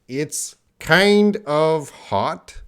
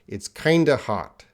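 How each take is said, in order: First: The word 'of' is said in full. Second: The word 'of' is reduced to a schwa. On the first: "it's the first line" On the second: "The second line"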